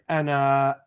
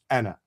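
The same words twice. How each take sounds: First: The final vowel is drawn out long. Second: The final vowel is kept short. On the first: The speaker calls it wrong. "we do not pronounce this aleph here as being long. We don't say Anna" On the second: The speaker calls it right. "just Anna"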